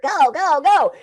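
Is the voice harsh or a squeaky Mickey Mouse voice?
Mickey Mouse. It is said in a squeaky Mickey Mouse voice.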